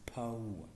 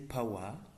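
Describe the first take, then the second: First: The vowels glide together in one syllable. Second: The vowels are split across two syllables. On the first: The speaker calls it right. "but it is power" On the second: The speaker calls it wrong. "which is not phonetically correct"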